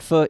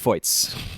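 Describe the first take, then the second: First: The name is said in a French way. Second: The name is said in a German way. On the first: The speaker calls it wrong. "I've been saying the Red Stars G M's last name in the French pronunciation" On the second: The speaker calls it right. "it sounds like it's the German pronunciation"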